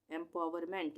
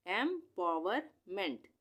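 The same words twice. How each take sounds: First: Said in the usual way. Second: empowerment said slowly, each part drawn out; slow blended reading. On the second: Shown as a demonstration. Teacher slowly joins empowerment for the class. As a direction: join empowerment slowly after spelling it. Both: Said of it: "उसके बाद M E N T".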